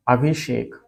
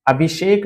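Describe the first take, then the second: First: अभिषेक with sh sound; correct form अभिषेक. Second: अभिसेक with s for sh; wrong form अभिसेक. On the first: Teacher giving the correct word, sh in अभिषेक. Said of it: "ये होता है". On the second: Teacher rejecting the misspelling, s in अभिसेक. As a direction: put a plain s in अभिसेक. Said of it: "नहीं होता ये". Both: Shown as a demonstration.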